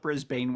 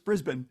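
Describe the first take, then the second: First: It is said with an American pronunciation. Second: It is said with an Australian pronunciation.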